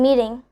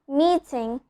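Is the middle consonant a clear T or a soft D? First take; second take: soft D; clear T. First: The middle consonant is a soft D. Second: The middle consonant is a clear T. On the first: "I'm changing the T sound into a D sound, a very soft D sound" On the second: "instead of telling meeting"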